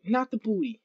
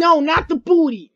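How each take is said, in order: First: Softer, low muttered repeat; muttering the same protest again quietly. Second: Yelling at the teammate not to hit; protesting. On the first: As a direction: say it again under your breath, deflated. Repeats it under breath. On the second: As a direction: cry it out as the hit lands. Character hit, crying out. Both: Real, not acted.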